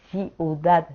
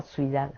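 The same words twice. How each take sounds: First: Said in the usual way. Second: "ciudad" said as suidá, the first syllables swapped and the final d dropped; childlike suidá for "ciudad", softly; mispronounced city. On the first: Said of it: "no podía decir bien". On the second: Shown as a demonstration. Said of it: "decía ciudad".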